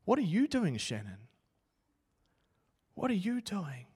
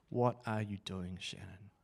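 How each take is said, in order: First: Booming voice of God. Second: Softer and lower, turned inward; quiet echo. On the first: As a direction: answer him back gently but firmly. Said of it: "this voice came booming into my helmet". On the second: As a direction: let the question sink in quietly. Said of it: "because I wanted them to see me chase glory". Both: Retold or imitated.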